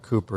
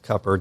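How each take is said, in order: First: The first vowel is a long 'oo' sound. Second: The first vowel is a short 'uh' sound. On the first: The speaker calls it wrong. "Cooper is not Cooper" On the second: The speaker calls it right. "it's Cupper"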